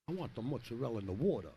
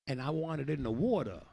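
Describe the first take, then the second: First: Said in the usual way. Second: Mock Italian Guido. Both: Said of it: "Learn how to be a Guido".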